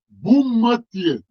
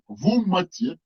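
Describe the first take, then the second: First: The name begins with a B sound. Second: The name begins with a V sound. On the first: This is the commonly heard form of the name. "Вы сейчас услышите Буммате" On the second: This is how local residents say the name. "а те, которые там живут, говорят Вуммате"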